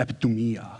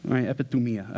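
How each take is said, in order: First: Said in the usual way. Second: Epithumia said offhand in a light New Jersey gangster accent; a passing hint of New Jersey gangster on epithumia. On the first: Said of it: "I don't know why I said it like a". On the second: Shown as a demonstration. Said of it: "I said it like a New Jersey, um, uh, gangster".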